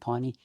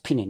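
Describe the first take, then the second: First: The name is said with an English-style pronunciation. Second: The name is said with a Māori pronunciation. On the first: The speaker calls it wrong. "he was going Piney" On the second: The speaker calls it right. "he's mispronouncing that. It's Pine"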